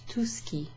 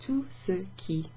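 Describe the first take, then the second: First: The phrase is squeezed into two quick syllables. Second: The phrase is said slowly in three clear syllables. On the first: "it kind of sounds like two syllables" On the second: "if someone's talking more slowly or if they're articulating"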